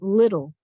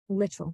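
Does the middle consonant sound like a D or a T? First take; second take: D; T. First: The middle consonant sounds like a soft D. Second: The middle consonant is a clear T sound. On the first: It is the everyday spoken form. "It sounds more like a d when you're speaking" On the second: It is the careful reading form. "you're going to want to have that T make its correct sound"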